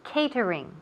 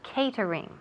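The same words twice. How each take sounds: First: It is said with an English pronunciation. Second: It is said with an English pronunciation.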